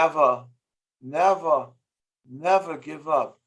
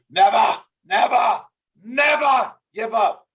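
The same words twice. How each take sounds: First: It is said flatly, without force. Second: It is said with strong, forceful tonality. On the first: The speaker calls it wrong. "it doesn't make an impact" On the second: The speaker calls it right. "that's so much more powerful"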